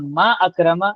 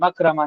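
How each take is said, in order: First: The glottal stop is pronounced, words kept separate. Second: The glottal stop is dropped, words run together. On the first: The speaker calls it right. "मैं कहूँगा मा अकरमा" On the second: The speaker calls it wrong. "मकरमा नहीं कहूँगा"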